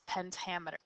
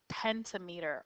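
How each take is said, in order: First: "pentameter" as pen-TAM-uh-ter; alternative pronunciation of pentameter. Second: "pentameter" as PEN-ta-MEE-ter; first pronunciation of pentameter. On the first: Teacher showing how it's sometimes pronounced, pen-TAM-eter. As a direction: stress the TAM in "pentameter", reduce the rest. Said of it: "sometimes it's pronounced pentameter". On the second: Teacher giving the term for five meters, pentameter said as penta-meter. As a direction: say "pentameter" with a full "meter" at the end. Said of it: "or sometimes it's pronounced pentameter". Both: Shown as a demonstration.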